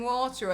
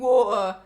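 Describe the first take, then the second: First: The t in the middle is clearly pronounced. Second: The t in the middle is a soft flap.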